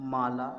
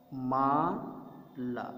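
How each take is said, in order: First: Said in the usual way. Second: माला with the आ in मा and ला drawn out very slowly; stretched long vowel. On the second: Shown as a demonstration. Teacher to kindergarten class, stretching out माला slowly. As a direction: sound out माला, holding each आ long. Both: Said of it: "यानी देर तक उसको बोलेंगे".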